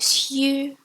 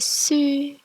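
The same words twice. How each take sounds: First: A y-glide comes before the vowel. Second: No y-glide comes before the vowel. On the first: The speaker calls it wrong. "Notice I didn't go su" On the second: The speaker calls it right. "It's as if the y is not there"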